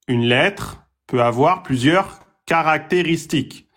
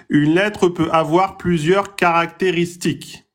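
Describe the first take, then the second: Both takes have the same delivery.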